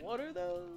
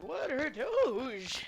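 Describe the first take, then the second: First: It is said in the speaker's usual delivery. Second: It is said in Marl's character voice.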